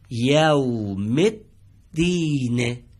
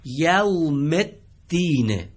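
First: یوم الدین read very slowly as yaumiddin, the م joined to the doubled د and the ال dropped; correct linked reading. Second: یوم الدین drawn out very slowly, a little higher and louder; Quranic phrase read out. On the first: Teacher giving the class the correct reading of یوم الدین. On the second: Teacher introducing the phrase یوم الدین to the class. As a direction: present یوم الدین in a slow reciting voice. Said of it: "عبارت سوم رو دقت بفهمید". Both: Shown as a demonstration.

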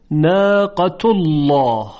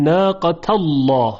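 First: ناقة الله slow, as "naaqatullaw", u before a thick l; damma before heavy lam. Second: ناقة الله as "naaqatallaw", a before a thick l; fatha before heavy lam. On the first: Teacher giving an example, slow ناقة الله with damma. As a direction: read ناقة الله with u leading into a dark lam. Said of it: "ناقة الله رو با فتح هم بخونیم". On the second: Teacher showing the other reading, ناقة الله with fatha. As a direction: read ناقة الله with a leading into a dark lam. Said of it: "با فتح هم بخونیم". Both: Shown as a demonstration.

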